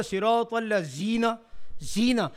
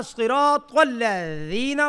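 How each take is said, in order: First: الذین with z instead of th, softer; mistaken z reading. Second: Slow الذین with voiced th for ذ; correct dhal. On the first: Teacher quoting the misreading, z in زینا. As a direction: say زینا with a plain z for dhal. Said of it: "پڑھ لیا". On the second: Teacher showing the intended reading, th in الذین. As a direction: stretch صراط الذین, tongue tip on teeth at ذ. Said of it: "پڑھنا تھا". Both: Shown as a demonstration.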